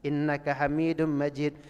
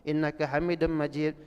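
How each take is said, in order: The two takes are said the same way.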